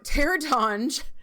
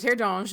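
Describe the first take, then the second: First: The name is said with English-style sounds. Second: The name is said with French-style sounds.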